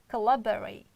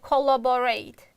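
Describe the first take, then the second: First: The unstressed vowels are reduced to schwa. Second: The unstressed vowels are said as full vowels. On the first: The speaker calls it right. "It's collaborate. ... other two, we can re reduce" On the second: The speaker calls it wrong. "most students pronounce like collaborate. It's wrong"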